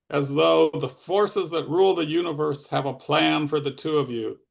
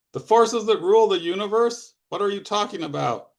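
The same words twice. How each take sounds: First: Lightly voiced mysterious oddball; a hint of solemn mystical pronouncement; Fogman. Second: Incredulous echo. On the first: Fogman telling Alvin of cosmic plans, lightly mysterious. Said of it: "high-pitched voice with strange undulations". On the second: Alvin challenging Fogman's mystical talk, incredulous. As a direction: throw the phrase back in disbelief, pitched up. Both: A narrator's reading.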